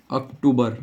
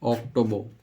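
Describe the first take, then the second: First: अक्टूबर said "ak-too-bar", with a long oo; Hindi pronunciation. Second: अक्टूबर said "ok-TO-bo", with rounded o sounds; English pronunciation. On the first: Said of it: "इसको हिंदी में बोलते हैं". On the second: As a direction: say अक्टूबर as English "ok-TOE-buh". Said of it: "इसको बोलते हैं हम". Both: Shown as a demonstration.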